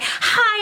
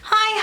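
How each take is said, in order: First: The greeting sounds pushed and overly sweet. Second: The greeting sounds relaxed and naturally friendly.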